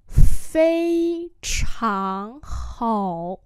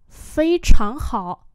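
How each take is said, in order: First: Long, sustained syllables; slow model for learners; slow demonstration. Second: Said in the usual way. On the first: Shown as a demonstration. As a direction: spell it out slowly by ear. Teacher repeats phrase slowly.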